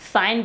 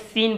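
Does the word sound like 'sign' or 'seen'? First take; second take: sign; seen. First: The vowel is 'ai', sounding like 'sign'. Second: The vowel is 'ee', sounding like 'seen'. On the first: The speaker calls it right. "साइन बोलने से" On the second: The speaker calls it wrong. "बहुत लोग सीन बोलते हैं"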